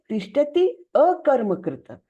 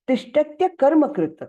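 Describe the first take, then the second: First: The words are split, with each ending kept whole. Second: The words are merged, with the final vowel blended. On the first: This is the split form that shows the meaning. "लेकिन वो है तिष्ठति अकर्मकृत" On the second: This is the recited form that fits the meter. "उच्चारण करते समय हम क्या बोलते हैं"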